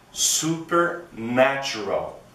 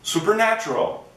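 First: The word is said at a slow pace. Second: The word is said at a fast pace.

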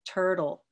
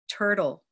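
First: The second T sounds soft, like a d. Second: The second T sounds soft, like a d.

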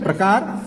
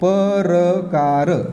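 First: The p and r are joined in one cluster. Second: The p and r are split by a vowel. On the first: "प्रकार आणि प्रश्न असं आपण वाचतो" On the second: "अगोदर या पचा उच्चार होते, नंतर या रचा होते"

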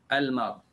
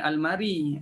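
First: The word ends on a stopped final consonant. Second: The word ends with an added vowel sound. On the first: The speaker calls it right. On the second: The speaker calls it wrong. "jangan almari"

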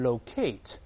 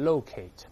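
First: The stress is on the second syllable. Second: The stress is on the first syllable. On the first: This is the British pronunciation. "英国人会读成locate" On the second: This is the American pronunciation. "美音中重音在前面读成locate"

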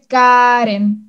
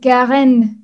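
First: The name is pronounced the Spanish way. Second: The name is pronounced the French way. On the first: "En español se dice Karen" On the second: "avec la prononciation en français"

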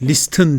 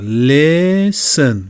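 First: The t sound is pronounced. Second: The t sound is silent. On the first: The speaker calls it wrong. "listen değil" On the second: The speaker calls it right. "bu t okunmuyor"

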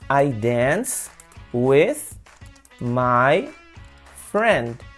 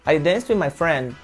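First: It is slow, with 'my' fully pronounced. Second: It is at normal speed, with 'my' reduced to 'ma'. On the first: "como eu falei devagar, eu pronunciei por inteiro" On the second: "Mas falando normal vai virar ma"

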